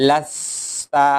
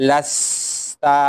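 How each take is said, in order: Both takes have the same delivery.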